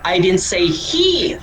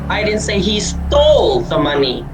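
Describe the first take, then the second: First: The word 'he' is stressed. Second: The word 'stole' is stressed. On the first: Someone else stole it. "Hindi ko sinasabi na siya" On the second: He may have only borrowed it. "Hindi ko sinasabi na ninakaw niya"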